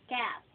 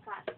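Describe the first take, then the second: First: "cat" louder, with the open front vowel of the animal; punched "cat" with an AE vowel; cat as pusa. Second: "cat" said as cut, with a short UH vowel; short central vowel, making "cat" sound like cut; cut, not cat. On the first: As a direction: stretch the A in "cat", as in the pet. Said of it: "Yan yung pusa". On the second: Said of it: "Ito naman, cat". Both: Shown as a demonstration.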